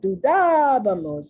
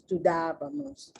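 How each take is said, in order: First: The stressed syllable is strongly exaggerated. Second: The stressed syllable is given natural weight. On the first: The speaker calls it wrong. "it's not dudabamos" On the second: The speaker calls it right. "It's not that exaggerated"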